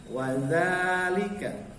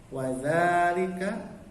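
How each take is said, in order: No difference in how they are said.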